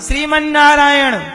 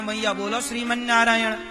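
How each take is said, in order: First: It is said loudly, with raised voice. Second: It is said softly, as into an ear.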